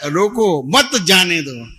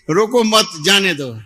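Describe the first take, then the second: First: "रोको", break, then "मत जाने दो" together; group "मत" with "जाने दो", pausing after "रोको"; pause after रोको. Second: "रोको मत" run together, then "जाने दो"; group "मत" with "रोको", break before "जाने दो"; pause after मत. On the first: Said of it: "लेकिन क्या बोलने का". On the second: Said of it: "तो जो अल्प विराम". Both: Shown as a demonstration.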